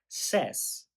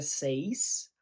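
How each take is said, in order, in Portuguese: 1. A vogal é a vogal curta de 'set'. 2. A vogal é a vogal longa de 'say'. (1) "a pronúncia é says" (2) "que não vira says"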